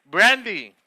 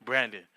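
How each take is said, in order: First: "Brandy" louder, with a falling end; Spanish-accented "Brandy" for Brandon. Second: Said in the usual way. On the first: Shown as a demonstration.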